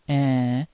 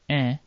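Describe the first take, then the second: First: The nasal vowel is said as a double vowel. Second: The nasal vowel is said very briefly. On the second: "It can appear short"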